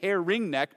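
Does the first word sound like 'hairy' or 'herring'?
herring. The first word is said as two clear syllables, 'herring'. This is the official name of the town. "It's actually Herring Neck"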